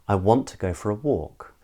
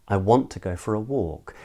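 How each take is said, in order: The two takes are said the same way.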